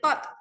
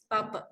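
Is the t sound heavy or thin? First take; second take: heavy; thin. First: The t sound is heavy and thick. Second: The t sound is light and thin. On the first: The speaker calls it wrong. "jangan baca tot" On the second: The speaker calls it right. "Dia ta tu masih lagi nipis"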